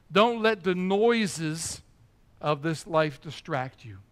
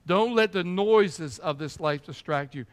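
First: Drawn-out, every word weighted, slow; slow emphatic warning. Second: Said in the usual way. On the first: Shown as a demonstration. Preacher warning the congregation, slow and weighty. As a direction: stretch each word out slowly.

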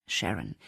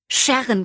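First: Much lower, soft name; hushed, lower call of her friend's name. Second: High, loud shriek of a name; shrieked name, bursting with news. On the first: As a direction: say her name softly to stop her. Gently correcting her friend. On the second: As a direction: scream her friend's name down the phone. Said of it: "kreischte sie". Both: A narrator's reading.

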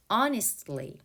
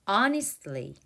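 No difference in how they are said.

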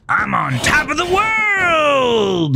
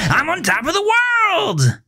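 First: Very high, slow cried shout; manic shout. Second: Very high sing-song, rising then dropping; gleeful repeat. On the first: Melvin on the car roof shouts to the whole lot, very high cry. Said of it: "Melvin shouted". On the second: Melvin repeats his joke to Gavin, very high sing-song. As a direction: toss it up playfully like a punchline. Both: A narrator's reading.

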